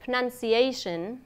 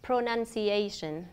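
First: "pronunciation" with first vowel dropped, "pr'nun-see-AY-shun"; "pronunciation" with a reduced first syllable; swallowed syllable. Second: "pronunciation" with full "pro-nun-see-AY-shun"; "pronunciation" with unreduced first syllable; every syllable sounded. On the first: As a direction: squeeze the start of "pronunciation" to "prnun". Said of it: "cách nuốt âm". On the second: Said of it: "thay cho". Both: Shown as a demonstration.

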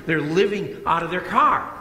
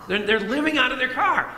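First: Said in the usual way. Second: Higher, stress on car; emphatic repeat. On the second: Real, not acted. Preacher stressing that the family lives in their car, pitched up. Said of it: "repeated for emphasis".

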